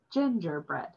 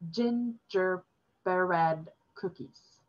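First: Gingerbread spelled out slowly and plainly. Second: Gingerbread cookies said very slowly, each sound strange; drawn-out gingerbread cookies, like an odd foreign word. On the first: Father explaining the strange word to his son, slow Gingerbread. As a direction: Gingerbread pronounced carefully for a child. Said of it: "father said slowly". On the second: Demoness offering the boy an unknown treat, slow careful gingerbread cookies. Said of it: "it sounded like". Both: A narrator's reading.

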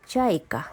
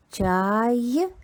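First: Said in the usual way. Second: Чайка spoken slowly with a rising pitch; drawn-out word demo. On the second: Shown as a demonstration. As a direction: stretch out Чайка with a questioning lift, as if teaching children to hear its sounds.

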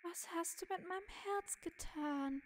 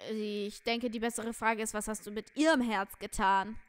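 First: High, subdued character voice; high-pitched acted lament; plaintive game figure. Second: Firm accusation leaning hard on "ihrem"; stern stress on IHREM. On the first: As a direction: ask it woundedly, pitched up high. Figure asks about its stolen heart. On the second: Acted. Other figure sternly corrects the question.

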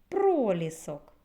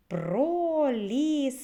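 First: Said in the usual way. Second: "пролісок" slow, high and loud, every syllable stretched; high, loud, elongated syllables in "пролісок"; drawn-out syllables. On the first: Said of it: "Скільки складів". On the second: Shown as a demonstration. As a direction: chant out "пролісок" as про, лі, сок. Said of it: "Вимовимо разом".

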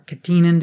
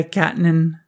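First: "catenin" stressed on the middle syllable, TEE; alternative pronunciation. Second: "catenin" stressed on the first syllable, CAT; first pronunciation variant. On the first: Lecturer offering the other option, "catenin" said ka-TEE-nin. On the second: Lecturer naming the pathway, "catenin" said CAT-nin. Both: Shown as a demonstration. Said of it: "how you want to pronounce it".

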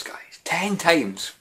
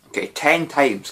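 First: Breathless whispered repeat of Ten times; whispered aside. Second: Said in the usual way. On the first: Shown as a demonstration.

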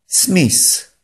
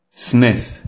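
First: "Smith" said as "smis", higher, TH turned to S; mispronounced Smith. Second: "Smith" with a TH close to F; correct Smith. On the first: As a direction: end "Smith" on a hissing S. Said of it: "Nieprawidłowa jego wymowa może brzmieć". (błędna wymowa: "Smith" jak „smis”, z S na końcu) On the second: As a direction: end "Smith" with the tongue tip between the teeth. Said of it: "Prawidłowa wymowa tego słowa powinna brzmieć". (poprawna wymowa: "Smith" z TH podobnym do F) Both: Shown as a demonstration.

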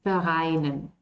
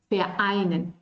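First: Vereinen run together with no break before the vowel, fa-ainen; wrong linked pronunciation. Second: Vereinen with a small pause before -einen, ver-einen; glottal stop before vowel. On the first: German teacher showing students the wrong linked way. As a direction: slur vereinen into one sound, no glottal stop. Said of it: "Estaría mal decir aquí vereinen". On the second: German teacher showing students the correct glottal break. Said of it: "Yo tengo que hacer esta pausa porque aquí hay una vocal". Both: Shown as a demonstration.

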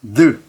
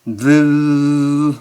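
First: Voiced "th" as a brief "느", ended quickly; one fast "느" with no ringing tail; short, quick "느". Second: Voiced "th" as a sustained "느"; long ringing "느". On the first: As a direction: cut "느" off at once. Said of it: "느 하고 빨리 끝나는 게 아니라". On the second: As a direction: hold "느" out on one steady, buzzing note. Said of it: "울려주는 겁니다". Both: Shown as a demonstration.

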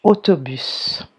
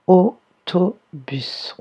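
First: Said in the usual way. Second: "Autobus" very slowly in three beats, AU, TO, BUS; "Autobus" broken up so both O sounds stand out; syllable by syllable. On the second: Shown as a demonstration. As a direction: sound out "Autobus" with a clear pause after each syllable. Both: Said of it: "On entend deux fois".

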